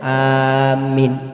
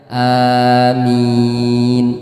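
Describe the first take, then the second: First: The first vowel is long, the second short. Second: Both the first and second vowels are long. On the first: Give us safety and peace. "a-nya panjang, minnya pendek" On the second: Answer our prayer. "a dan minnya sama-sama panjang"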